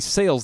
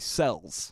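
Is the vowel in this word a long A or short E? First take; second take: long A; short E. First: The vowel is a long A sound. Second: The vowel is a short E sound. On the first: "they don't say sales" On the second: "they say cells"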